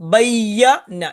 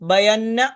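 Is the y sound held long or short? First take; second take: long; short. First: The y sound is held long and doubled. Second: The y sound is short and single. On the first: The speaker calls it right. "യാക്ക് ശബ്ദമുണ്ട്" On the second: The speaker calls it wrong. "ബയന്ന അല്ല"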